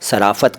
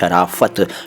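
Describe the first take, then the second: First: The word begins with a plain 's' sound. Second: The word begins with an 'sh' sound. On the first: The speaker calls it wrong. "इसको कई लोग सराफत कह देते हैं" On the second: The speaker calls it right. "यह है शराफत"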